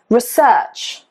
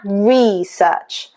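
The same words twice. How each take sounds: First: The stress is on the second syllable. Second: The stress is on the first syllable. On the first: It is used as a verb. "the stress is on the second syllable" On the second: It is used as a noun. "That is a noun"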